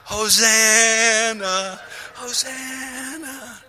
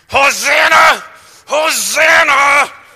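First: It is said calmly and reverently. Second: It is screamed angrily.

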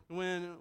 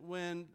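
Both takes have the same delivery.

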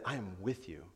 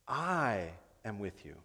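First: The word 'I' carries no special stress. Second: The word 'I' carries strong stress. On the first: Someone is simply present with you. "I think I always said" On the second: This one is with you, so no one else is needed. "Like God is saying, who else do you need? I'm here"

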